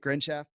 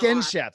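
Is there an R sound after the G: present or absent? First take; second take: present; absent. First: An R sound follows the first consonant. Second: No R sound follows the first consonant. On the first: The speaker calls it wrong. "Did I say that right?" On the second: The speaker calls it right. "There's no R?"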